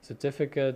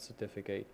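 First: The last syllable sounds like 'kit'. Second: The last syllable sounds like 'kate'. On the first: The speaker calls it right. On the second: The speaker calls it wrong.

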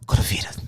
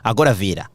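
First: It is spoken in a soft, breathy voice. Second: It is shouted in a loud, normal voice.

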